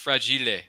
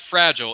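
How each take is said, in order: First: The word is said with Italian-sounding pronunciation. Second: The word is said with ordinary English pronunciation. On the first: The speaker calls it right. "It's fragile. ... It's Italian" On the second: The speaker calls it wrong. "It's not fragile"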